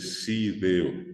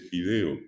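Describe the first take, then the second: First: The word begins with an s sound. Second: The word begins with an f sound. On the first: The speaker calls it wrong. "dice sideo" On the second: The speaker calls it right. "mucha gente no dice fideo"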